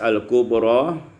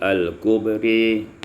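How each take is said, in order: First: The final vowel is a plain open 'a'. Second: The final vowel is tilted toward 'i'.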